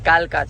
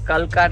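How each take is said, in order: First: The first vowel is long. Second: The first vowel is short. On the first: The speaker calls it right. "કાલકા છે નામ" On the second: The speaker calls it wrong. "Sorry guys"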